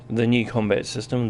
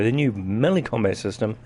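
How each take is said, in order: First: Said in the usual way. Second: Melee slightly stressed as a self-correction; catching a slip, a light stress on melee. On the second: Real, not acted. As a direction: lean a little on melee to fix the slip. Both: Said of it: "sorry, the new melee combat system".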